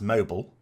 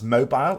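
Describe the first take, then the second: First: It is said with an American pronunciation. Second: It is said with a British pronunciation. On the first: "in America that tends to be pronounced mobile" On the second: "how we would pronounce mobile"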